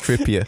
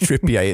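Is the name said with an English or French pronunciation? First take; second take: English; French. First: The name is said with an English pronunciation. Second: The name is said with a French pronunciation. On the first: The speaker calls it right. "it's Trippier" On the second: The speaker calls it wrong. "You turned him French"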